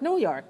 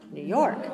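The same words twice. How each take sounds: First: The stress falls on the word New. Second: The stress falls on the word York. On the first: The speaker calls it wrong. "don't say New York, New York. That's not English" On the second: The speaker calls it right. "So say New York, New York"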